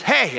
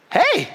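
First: Higher-pitched, mildly yelled hey; imitated neighbor's yell. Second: Very high, loud, eager hey; friendly neighborly reply. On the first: Lady pulls up beside the trimmer, mock yell. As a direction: mimic a neighbor hollering for attention. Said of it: "she was yelling at me". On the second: Retold or imitated. Man hoping to connect with his neighbor, eager friendly hey. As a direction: chirp an over-friendly greeting back. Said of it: "a neighbor wants to be neighborly".

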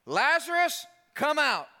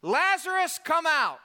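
First: High, loud call by name. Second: High, loud ringing call into the tomb. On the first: Jesus at the grave calling Lazarus by name, loud high call. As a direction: summon him out, full voice. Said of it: "he calls him by name". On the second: Jesus calling Lazarus out of the grave, loud high call. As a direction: call the dead man out by name. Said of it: "called in a loud voice". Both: Retold or imitated.

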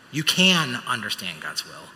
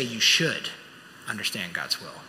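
First: Slow line with "can" stretched and emphasized; stress on CAN. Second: "should" emphasized, pause, then low soft finish; stress on SHOULD. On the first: Preacher assuring congregation God's will is knowable, stress on "can". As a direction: lean firmly on "can", then ease off. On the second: Preacher telling congregation it is a command, stress on "should". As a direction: land on "should", pause, drop the rest low. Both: Real, not acted.

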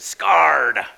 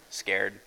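First: Scarred with a long pirate arr, louder; pirate-style scarred. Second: Said in the usual way. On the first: Shown as a demonstration. Pastor joking about the child's misspelling, louder with a pirate arr in Scarred. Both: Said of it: "That's what pirates feel when they're frightened".

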